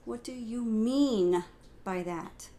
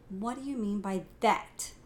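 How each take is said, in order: First: The emphasis falls on the word mean. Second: The emphasis falls on the word that.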